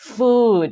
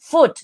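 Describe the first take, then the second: First: The vowel is long and drawn out. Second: The vowel is short, sounding like 'foot'. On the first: It means something to eat. The speaker calls it right. "เนี้ยออกเสียงยาวอย่างนี้เลยนะคะ" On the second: It sounds like the word for foot. The speaker calls it wrong. "นะไม่ได้นะ"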